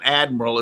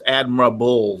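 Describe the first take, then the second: First: The word is said with three syllables. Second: The word is said with four syllables. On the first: The speaker calls it wrong. "it's not admiral" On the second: The speaker calls it right. "it's admirable"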